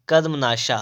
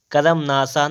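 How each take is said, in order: First: "कर्मनाशा" as karm-naashaa, with sh; correct sibilant. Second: "कर्मनाशा" as karam-naasaa, with s; wrong sibilant. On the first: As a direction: join karm and end "कर्मनाशा" in -shaa. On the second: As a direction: say "कर्मनाशा" with extra a and hissed s. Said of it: "कर्मनाशा नहीं". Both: Shown as a demonstration.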